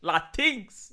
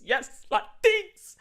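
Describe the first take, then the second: First: Said in the usual way. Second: Mock swooning. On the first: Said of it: "I can imagine him". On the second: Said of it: "tears of joy over his face".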